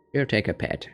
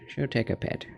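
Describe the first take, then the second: First: Said in the usual way. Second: "She'll take a pet." whispered softly; whispered repeat. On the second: Real, not acted. Petting the cat.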